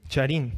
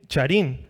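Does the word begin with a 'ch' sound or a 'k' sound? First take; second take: ch; ch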